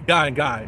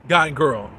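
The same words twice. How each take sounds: First: Guy and guy with the second "guy" hit firm, falling at the end; stress on the second guy. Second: Put-on guy and girl with each word landing firm and separate, falling at the end; stress on guy and girl. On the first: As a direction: punch the repeated "guy" to land the surprise. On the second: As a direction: lean on "guy" then "girl" to set them apart. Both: Shown as a demonstration. Contrasting couples in recap.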